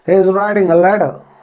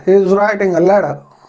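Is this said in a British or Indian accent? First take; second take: British; British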